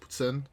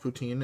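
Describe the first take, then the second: First: It is said without an English accent. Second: It is said with an English accent. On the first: The speaker calls it right. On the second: The speaker calls it wrong.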